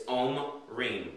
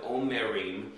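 First: "omrim" as ohm-REEM, drawn out slowly; "omrim" in two slow syllables, om and rim; two syllables, vowel dropped. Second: "omerim" as o-mer-EEM; "omerim" in three syllables, with a full "mer"; three syllables, vowel kept. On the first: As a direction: split "omrim" after the m, no middle vowel. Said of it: "creates a glottal stop and creates two syllables". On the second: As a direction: keep the middle vowel in "omerim". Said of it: "So notice we lose a vowel". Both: Shown as a demonstration.

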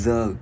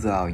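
First: "The" with a long buzzing TH, tongue between the teeth; buzzed TH. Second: Said in the usual way. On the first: Shown as a demonstration. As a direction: press the tongue and vibrate the TH of "The". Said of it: "mình ép rung". ("The", đưa lưỡi giữa hai răng, ép rung) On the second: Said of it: "bình thường chữ này người ta sẽ nói".

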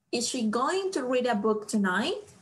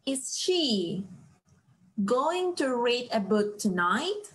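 First: Said in the usual way. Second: Slow it down so students can follow; slow reading. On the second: Shown as a demonstration. Teacher reads the question slowly to the class. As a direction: read the question slowly, word by word. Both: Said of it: "La pregunta aquí es".

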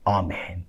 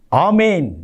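First: Soft, very low amen; hushed amen. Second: Said in the usual way. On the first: Real, not acted. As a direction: let the amen sink away. Second amen, dropped low.

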